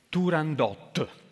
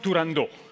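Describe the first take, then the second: First: The final t is sounded out strongly. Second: The final t is dropped and not heard. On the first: The speaker calls it right. "Gli sputate nell'occhio quel di fronte" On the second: The speaker calls it wrong. "Non Turandot"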